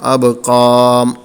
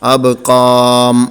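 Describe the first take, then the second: The two takes are said the same way.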